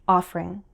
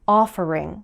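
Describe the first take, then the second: First: The word is said with one syllable dropped. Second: The word is said with its full syllables.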